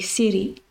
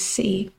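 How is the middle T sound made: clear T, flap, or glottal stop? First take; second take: flap; glottal stop. First: The middle T is a soft D-like flap. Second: The middle T is a glottal stop. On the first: "in American English, that would be city. Like, the T would become a D almost" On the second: "what I'm more likely to say"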